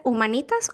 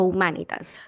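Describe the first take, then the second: First: Humanitas stressed on the NI; one of two pronunciations. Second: Humanitas stressed on the MA; other of two pronunciations. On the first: Asking a school friend about pronunciation, humanitas with later stress. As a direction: say humanitas as hu-ma-NÍ-tas. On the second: Giving the alternative to a school friend, humanitas with earlier stress. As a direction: say humanitas as hu-MÁ-ni-tas. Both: Shown as a demonstration. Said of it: "dependiendo de cómo lo quieran pronunciar".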